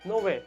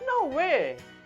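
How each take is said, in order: First: It is said in a flat, straightforward pitch. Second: It is said with a clearly varied pitch.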